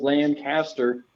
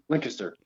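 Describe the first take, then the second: First: The name is said at a normal, careful pace. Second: The name is sped up and crammed together. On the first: "instead of Lancaster" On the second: "they just speed it up. They just cram it together"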